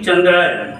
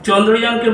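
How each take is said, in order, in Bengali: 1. এতে হিন্দি ধাঁচের উচ্চারণ আছে, chandrayan। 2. এতে বাংলা উচ্চারণ আছে, chondrojan।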